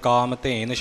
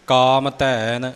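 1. ਦੂਜੇ ਸ਼ਬਦ ਵਿੱਚ 'e' ਸਵਰ ਹੈ। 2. ਦੂਜੇ ਸ਼ਬਦ ਵਿੱਚ 'ai' ਸਵਰ ਹੈ। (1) "ਕਈਆਂ ਥਾਵਾਂ 'ਤੇ ਕਾਮ ਧੇਨ ਛਪਿਆ ਹੁੰਦਾ" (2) "ਇਹ ਪਾਠ ਇਸੇ ਰੂਪ ਵਿੱਚ ਸ਼ੁੱਧ ਹੈ"

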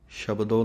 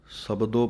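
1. ਇਹ ਸ਼ਬਦ sh ਆਵਾਜ਼ ਨਾਲ ਸ਼ੁਰੂ ਹੁੰਦਾ ਹੈ। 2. ਇਹ ਸ਼ਬਦ ਸਾਦੀ s ਆਵਾਜ਼ ਨਾਲ ਸ਼ੁਰੂ ਹੁੰਦਾ ਹੈ। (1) "ਨਹੀਂ ਕਹਿ ਦੇਣਾ" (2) "ਇਸੇ ਤਰ੍ਹਾਂ ਹੀ ਪੜ੍ਹਨਾ ਹੈ ... ਬਿਨਾਂ ਬਿੰਦੀ ਤੋਂ"

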